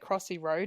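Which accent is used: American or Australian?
Australian. It is said in an Australian accent. This is the old way the speaker used to say it. "I don't say Crossy Road anymore"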